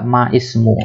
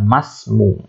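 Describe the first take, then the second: First: The two words are separate with the i sound. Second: The two words run together without the i sound. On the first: "Boleh nggak ma ismu?" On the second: "ini ada ditulis tapi tidak diucapkan. Maka kita katakan masmu"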